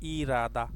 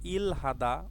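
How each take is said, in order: First: The l links forward and h disappears. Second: The l and h are said separately. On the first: The speaker calls it right. "আমরা উচ্চারণ করব ইরাদা" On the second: The speaker calls it wrong. "ইল হাদা উচ্চারণ না করে"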